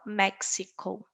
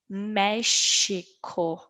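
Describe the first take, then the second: First: The x sounds like ks. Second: The x sounds like sh. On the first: The speaker calls it wrong. "e não México" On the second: The speaker calls it right. "Nós falamos México"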